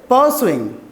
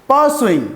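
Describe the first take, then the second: The two takes are said the same way.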